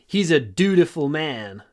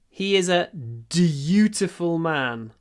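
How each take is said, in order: First: It is said in an American accent. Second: It is said in the speaker's usual accent.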